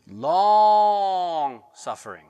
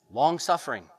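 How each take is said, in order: First: "long suffering" stretched slow and loud, long held; long suffering drawn out. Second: Said in the usual way. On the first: Shown as a demonstration. Preacher dramatizing the word for congregation, stretched out. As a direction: hold "long" out slowly and loudly.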